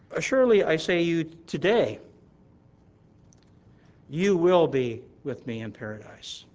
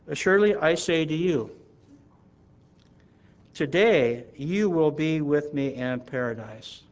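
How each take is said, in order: First: The pause comes just after the word today. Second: The pause comes just before the word today. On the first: The promise is made today about a future event. "the second difference with the comma after the word today" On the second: The listener will be in paradise that very day. "let's read how it reads in the New King James Version"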